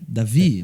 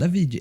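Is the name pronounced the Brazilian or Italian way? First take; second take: Brazilian; Italian. First: The name is said the Brazilian Portuguese way. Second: The name is said with an Italian-sounding accent.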